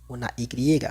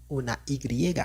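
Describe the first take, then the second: No difference in how they are said.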